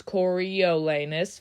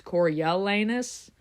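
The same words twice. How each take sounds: First: Coriolanus slow in five syllables, co-ri-o-la-nus; spelled-out pronunciation. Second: Coriolanus with the middle o blurred to eh, co-ri-e-la-nus; fast-speech version. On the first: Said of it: "If you say it how it's spelled". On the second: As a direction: let Coriolanus slur in the middle as in quick speech. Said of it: "when I say it fast". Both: Shown as a demonstration.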